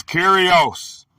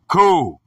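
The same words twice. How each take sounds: First: Said in the usual way. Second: "ku-ri-os" broken into three separate syllables; syllable-by-syllable pronunciation. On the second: Shown as a demonstration. Teacher showing how the Greek word is pronounced, "ku-ri-os" syllable by syllable. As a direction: sound out "ku-ri-os" slowly, pausing between syllables.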